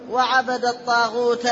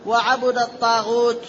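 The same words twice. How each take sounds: First: وعبد said wa-'abada, a after b; short a on ba, a ending الطاغوت; fatha on the ba. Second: وعبد said wa-'abuda, u after b; short u on the ba of وعبد; damma on the ba. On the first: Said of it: "بنصب الباء وفتح التاء". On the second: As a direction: recite وعبد الطاغوت as wa-'abudat-taghut. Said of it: "بضم الباء وجر التاء". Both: Shown as a demonstration.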